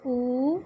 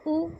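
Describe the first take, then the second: First: "उ" held for double length, as oo; a long, sustained "उ"; long vowel. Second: "उ" said short, as a brief u; "उ" cut short for teaching; short vowel. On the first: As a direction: stretch "उ" into a long oo. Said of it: "दो गुना मतलब double time". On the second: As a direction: keep "उ" to one quick beat. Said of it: "बहुत ही कम समय में उच्चारण". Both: Shown as a demonstration.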